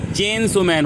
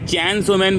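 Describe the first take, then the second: First: The vowel in chain sounds like 'ay'. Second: The vowel in chain sounds like 'ai'. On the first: The speaker calls it right. "जबकि चेन सो man होता है" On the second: The speaker calls it wrong. "मैं चैन सो man बोलता था"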